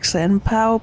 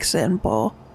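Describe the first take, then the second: First: The last syllable ends in an 'ow' diphthong. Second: The last syllable ends in a plain O. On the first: The speaker calls it wrong. "You keep pronouncing it like Senpao" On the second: The speaker calls it right. "but it's like Senpo"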